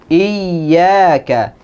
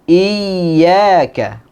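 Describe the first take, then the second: The two takes are said the same way.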